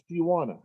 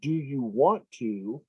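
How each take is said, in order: First: 'Want to' is quickly reduced to 'wanna'. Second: Both words of 'want to' are fully pronounced. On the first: "if you're saying it fast" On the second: "if you have good pronunciation, you'll make sure you say it that way"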